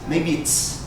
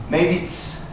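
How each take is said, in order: First: "It is" is run together as "it's". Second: The same.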